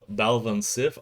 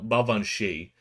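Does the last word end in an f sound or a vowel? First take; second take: f sound; vowel. First: The last word ends with an f sound. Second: The last word ends with a vowel sound. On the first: The speaker calls it wrong. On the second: The speaker calls it right.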